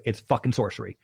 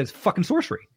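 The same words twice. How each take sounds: First: Said in the usual way. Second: "It's fucking sorcery" blurted high with a rising end; retold astonishment, pitch jumping up on "sorcery"; wide-eyed outburst, "sorcery" lifted high; amazed exclamation. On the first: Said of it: "He goes". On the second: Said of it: "I said".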